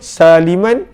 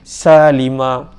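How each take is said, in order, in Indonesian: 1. Kata itu berakhir dengan bunyi n. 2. Kata itu berakhir pada vokal, tidak ada n. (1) "sambung pun boleh saliman sawiyah" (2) "ataupun berhenti boleh salima"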